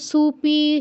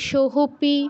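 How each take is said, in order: First: The first syllable is su. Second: The first syllable is soh with an h. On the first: "কেউ সুপি ... এগুলো বলবো না" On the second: "এগুলো বলবো না"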